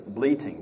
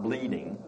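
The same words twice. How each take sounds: First: "Bleating" said with a crisp T, not a D: bleet-ing; clear t in bleating. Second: "bleeding" with a soft D sound, the mistaken word; wrong version, bleeding. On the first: Teacher correcting a word for the class, crisp T. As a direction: stress the T in "Bleating", BLEE-ting. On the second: Teacher showing the class the wrong word, soft D. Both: Shown as a demonstration. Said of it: "not bleeding".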